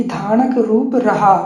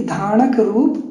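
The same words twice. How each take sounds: First: "धानक रूप रहा" slowly as one phrase, then a break; pause after रहा. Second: "धानक रूप" slowly, rising into a comma; pause after रूप. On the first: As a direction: carry on through "रूप" and stop after "रहा". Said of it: "फिर comma लगाया". ("धानक रूप रहा" एक साथ धीरे, फिर ठहराव) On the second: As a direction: stop after "रूप", left hanging. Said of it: "comma लगाया". ("धानक रूप" धीरे, "रूप" पर उठकर ठहराव) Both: Shown as a demonstration.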